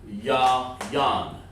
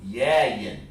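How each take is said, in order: First: The last syllable has an 'an' vowel. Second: The last syllable has an 'in' vowel. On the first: The speaker calls it right. "No, it's actually yayan" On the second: The speaker calls it wrong. "So what they did is they say yeah. There you go again. Yeah, like that"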